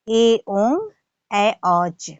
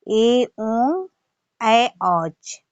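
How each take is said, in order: The two takes are said the same way.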